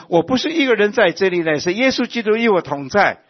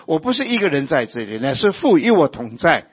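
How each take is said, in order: First: High, loud proclamation with stress on 一; louder and higher, 一 punched; emphatic declaration. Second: Said in the usual way. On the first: Acted. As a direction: declare it to the whole church, hitting 一 hard. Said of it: "今天我们都能够说". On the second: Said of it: "好像耶稣说".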